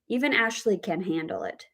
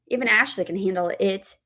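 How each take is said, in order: First: The stress falls on the word can. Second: The stress falls on the word it. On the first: She has the ability to deal with it. "we have the word stress on can" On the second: The thing being dealt with is the main point. "The word stress on that final word, it"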